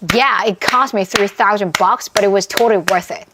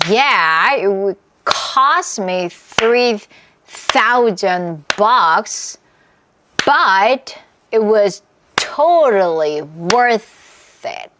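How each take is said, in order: First: It is said at the fastest pace. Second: It is said at a slower pace.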